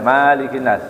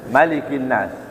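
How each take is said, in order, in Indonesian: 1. Vokal pertama di 'malik' itu panjang. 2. Vokal pertama di 'malik' itu pendek. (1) "Nggak boleh malikin nas"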